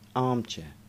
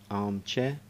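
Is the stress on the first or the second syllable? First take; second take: first; second. First: The stress falls on the first syllable, 'arm'. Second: The stress falls on the second syllable, 'chair'. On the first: This is the American way of saying it. "An American would put the stresses in a completely different place" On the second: This is the British English way of saying it. "In English, that's where we put the stress in these particular words"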